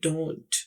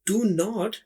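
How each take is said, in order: First: It is said as one contracted syllable. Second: It is said as two full separate words.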